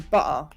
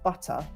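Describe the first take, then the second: First: The middle T sound is dropped. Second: The middle T sound is clearly pronounced. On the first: The speaker calls it wrong. "Like I would say" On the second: The speaker calls it right.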